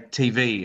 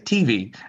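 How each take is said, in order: First: The stress is on the V. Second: The stress is on the T. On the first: This is how Australians say it. "we emphasize the V" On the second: This is how Americans say it. "it like emphasizes the T"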